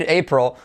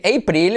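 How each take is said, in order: First: "April" as "AY-prul"; correct pronunciation. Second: "April" as "ay-PREEL"; wrong pronunciation. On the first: Shown as a demonstration. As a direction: swallow the second vowel of "April". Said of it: "empieza a decir". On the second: Retold or imitated. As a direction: mimic Spanish "April" with a full ee. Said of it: "para de decir".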